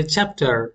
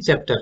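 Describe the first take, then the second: First: চ্যাপ্টার with a clear opening CH-AP and sounded final R; corrected pronunciation. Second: Said in the usual way. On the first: Shown as a demonstration. Teacher corrects the everyday way of saying it, careful pronunciation. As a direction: say চ্যাপ্টার as a careful English model, "CHAP-tar". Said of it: "এটা হবে চ্যাপ্টার". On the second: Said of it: "আমরা normally বলি কি".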